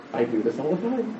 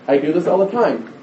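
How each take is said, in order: First: Soft, sobered confession; quiet realisation. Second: Said in the usual way. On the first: Retold or imitated. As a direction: drop right down, as if thinking it privately. Sudden realisation, first take subdued.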